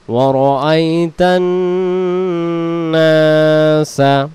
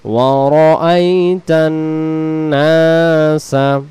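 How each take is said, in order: First: ওয়ারাআইতান slow, নাসা with a long nasal ন্ন; model recitation. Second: ওয়ারাআইতান stretched slowly, নাসা drawn out; repeat model. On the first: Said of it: "গুণা করতে হবে". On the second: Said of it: "আবার". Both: Shown as a demonstration.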